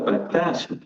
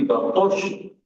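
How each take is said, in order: First: The middle consonant is a plain s sound. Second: The middle consonant is an sh sound. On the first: The speaker calls it wrong. "bukan batas" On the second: The speaker calls it right. "tapi batosh"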